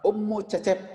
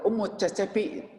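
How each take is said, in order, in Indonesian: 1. Nama itu berakhir dengan bunyi p biasa. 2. Nama itu berakhir dengan vokal i yang ditambahkan. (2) "Tidak perlu ummu cecepi"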